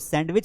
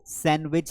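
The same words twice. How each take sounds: First: A d sound is pronounced before the w. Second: No d sound is pronounced before the w. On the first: The speaker calls it wrong. "वो सैंडविच नहीं है" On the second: The speaker calls it right. "उसमें डी जो लिखा हुआ होता है वो पढ़ा नहीं जाता है"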